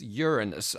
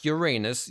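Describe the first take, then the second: First: The name begins with a sound like 'urine'. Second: The name sounds like the phrase 'your anus'. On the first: This version avoids the rude joke. The speaker calls it right. "I'm not making that joke. I guess you could still make a joke about urine" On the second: This version invites a rude joke. The speaker calls it wrong. "not Uranus"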